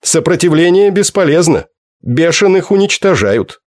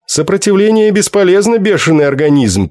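First: Flat and final, like a machine; alien machine voice. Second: Alien machine voice. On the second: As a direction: speak like a cold alien translator. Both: A narrator's reading. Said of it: "произнёс словарь".

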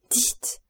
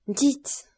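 First: Voiceless, strangled whisper; the voice gives out on the word; breath only, the voice gone; choked whisper. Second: High, loud, rising choked cry; a loud, breaking plea; strangled cry. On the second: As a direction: force the word out in anguish. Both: A narrator's reading. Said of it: "d'une voix étranglée".

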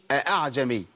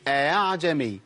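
First: أعجمي opened with two separate glottal catches, "a-a'jami"; two full hamzas. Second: Second hamza of أعجمي eased into a gliding "a-a"; softened hamza. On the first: Teacher showing what not to say, two full hamzas in أعجمي. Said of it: "ما أقولش أعجمي". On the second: Teacher showing Hafs's reading, softened hamza in أعجمي. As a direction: glide through أعجمي without a second catch. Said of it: "بيتعامل معاها بتسهيل الهمزة". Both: Shown as a demonstration.

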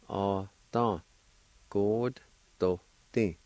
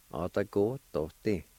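First: Each syllable of "Ata God Doti" drawn out slowly and evenly; slow demonstration. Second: Said in the usual way. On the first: Shown as a demonstration. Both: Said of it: "And together".

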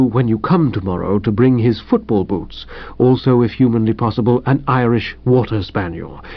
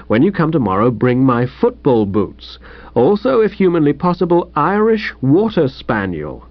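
First: The valet dutifully restates the telegram; Jeeves repeating. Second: Bright, lightly puzzled reading aloud; the young master reads the wire aloud; Bertie reading the telegram. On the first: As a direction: repeat it gravely, unruffled. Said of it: "As I interpret the document". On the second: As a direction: read it out like a baffling note. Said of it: "I'll read it to you". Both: Acted.

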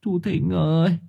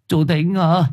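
First: High, weepy plea; softer, grieving appeal; tearful call. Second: High, carrying call at a door; raised-pitch summons into the night. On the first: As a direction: call to him through welling tears. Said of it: "Thưởng Báo lại trào nước mắt". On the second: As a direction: call someone out of the house. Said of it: "Gọi một hồi". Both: A narrator's reading.

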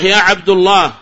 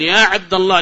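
First: "عبد" loudly given a -u ending; wrong damma. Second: "عبد" ending in -a; accusative fatha. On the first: Teacher shows a gross error, "عبد" said abdu. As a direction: say "عبد الله" loudly as Abdullah. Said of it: "هذا لحن فاحش". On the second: Teacher corrects the call, "عبد" said abda. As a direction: say "عبد الله" as Abdallah. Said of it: "يكون منصوبًا". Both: Shown as a demonstration.

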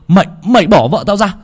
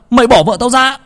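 First: High, louder furious demand; husband yelling at the thug; angry shout. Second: Higher still, frantic shout; husband yelling at the thug; furious yell. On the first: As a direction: order them off his wife. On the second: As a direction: scream the demand again harder. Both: A narrator's reading.

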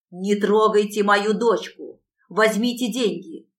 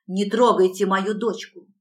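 First: Louder, slower desperate plea; panicked trapped animal. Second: Loud desperate plea; pleading for the child in panic; panicked trapped animal. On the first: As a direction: beg harder, dragging the words out. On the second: Mother pleads for daughter. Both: A narrator's reading.

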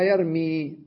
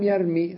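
First: يرمي with the final "ii" drawn out long; long final vowel. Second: يرمي ending in a short "i", yaa dropped; short final vowel. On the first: Teacher showing the original form of the verb, long final vowel on يرمي. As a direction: hold the last vowel of يرمي. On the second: Teacher showing the jussive after lam, short final vowel on يرمي. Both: Shown as a demonstration. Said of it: "أصلها يرمي".

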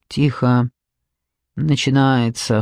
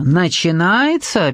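First: Low, slow, sullen order; understated gruff hushing; gloomy cut-off. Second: Slow questioning "Начинается" with a swoop up; puzzled, stretched query. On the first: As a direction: cut them off grimly, pitched down. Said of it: "хмуро оборвал их Луп". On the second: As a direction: echo "Начинается" as a drawn-out question, pitch peaking mid-word. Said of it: "переспросил Джекоби". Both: A narrator's reading.

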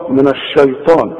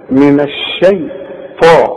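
First: الشيطان with a thick, dark "shay"; wrong heavy shin. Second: الشيطان slowly, thin "shay" then thick "taa"; light shin, heavy ta. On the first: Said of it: "اوعى تقول لي من الشا". (الشيطان بشين مفخمة غلط) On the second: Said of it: "الطاء هي المفخمة". (الشيطان ببطء، شين مرققة وطاء مفخمة) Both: Shown as a demonstration.

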